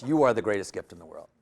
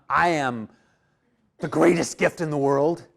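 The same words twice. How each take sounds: First: "You are" as the correction, rest running lower; lower, settled version led by "You are"; stress on You are. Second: "I" punched, pause after "am", then a rising end; rejected version with "I am" set apart; stress on I. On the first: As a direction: lean on "You are", then let the line drop. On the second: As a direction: hit "I am", break, finish unresolved on a rise. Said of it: "It's not". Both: Shown as a demonstration.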